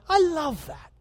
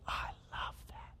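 First: Higher, bright burst of delight; light up with joy on the words; a fond father's delighted exclaim; delighted approval. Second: Breathy, voiceless whisper of delight; soft whisper of fond approval. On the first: God delighting in cheerful giving. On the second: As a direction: whisper it like a tender secret. God fondly approving, whispered. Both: Retold or imitated.

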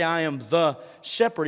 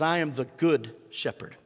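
First: Said in the usual way. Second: "good" leaned on, the key word of "I am the good shepherd"; stress on GOOD. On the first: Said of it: "he doesn't just say". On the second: Shown as a demonstration. Pastor correcting the quote to show the real claim, stress on "good". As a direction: give "good" the weight. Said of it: "He says".

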